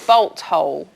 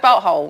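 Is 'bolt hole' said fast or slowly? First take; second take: slowly; fast. First: The words are said slowly and carefully. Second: The words are said quickly. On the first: "I have to really say it quite slowly" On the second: "Say it fast"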